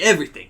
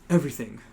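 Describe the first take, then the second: First: It is said in a New Jersey accent. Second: It is said in a plain, unaccented voice.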